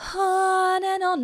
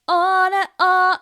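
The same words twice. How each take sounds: First: The first word starts with a breathy onset. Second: The first word starts with a glottal catch. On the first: "aspirate onsets" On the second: "like a glottal onset"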